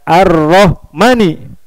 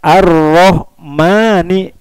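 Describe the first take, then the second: First: The final vowel is drawn out long. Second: The final vowel is short. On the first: The speaker calls it wrong. "dibaca panjang" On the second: The speaker calls it right. "Harusnya pendek"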